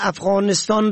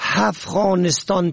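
First: The word begins with a plain vowel. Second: The word begins with an h sound. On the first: The speaker calls it right. "که با الف شروع می شود" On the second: The speaker calls it wrong. "با ه دو چشمه افغانستان تلفظ می کنن"

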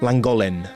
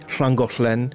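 First: It begins with a plain l sound. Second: It begins with a hissing shl sound. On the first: The speaker calls it wrong. "Они все говорят «ланголен»" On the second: The speaker calls it right. "надо было произнести все эти названия правильно"

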